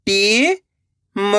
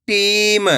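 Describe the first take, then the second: First: "टीम" split with a pause; long rising टी, pause, then म in "टीम"; letter by letter. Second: Said in the usual way. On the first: Shown as a demonstration. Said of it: "एक एक अक्षर का उच्चारण". ("टीम" को तोड़कर, टी... म) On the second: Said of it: "तो मिलके बन जाएगा".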